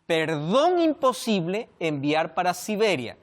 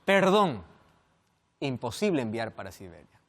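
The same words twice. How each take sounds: First: "Perdón imposible" run together, pause after "imposible". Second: "Perdón," set apart, then a long pause; pause after perdón. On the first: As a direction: read "Perdón imposible" as one phrase, then "enviar para Siberia". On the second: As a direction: comma right after "Perdón". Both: Shown as a demonstration. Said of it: "qué tal si la coma lo coloco en otro lado".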